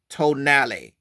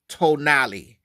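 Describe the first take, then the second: First: The word ends with a 'nah-lay' sound. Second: The same.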